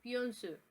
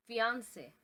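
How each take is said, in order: First: Fiancé said the French way, stress on the final syllable; French pronunciation. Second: Fiancé said the English way; English pronunciation. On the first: Teacher models the French word for the class, French sounds. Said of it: "in French". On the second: Teacher models the English word for the class, English sounds. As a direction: say fiancé as an English speaker would. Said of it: "fiancé in English". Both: Shown as a demonstration.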